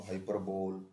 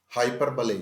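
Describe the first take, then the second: First: हाइपरबोल said as hai-per-bol, the wrong way; soft demo of the mistaken हाइपरबोल; हाइपरबोल rhyming with bowl; wrong pronunciation shown. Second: हाइपरबले said as hai-per-buh-lee; हाइपरबले, not हाइपरबोल; hyperbole pronounced right. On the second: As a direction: stress हाइपरबले with the ending ले. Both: Shown as a demonstration. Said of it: "हाइपरबोल नहीं".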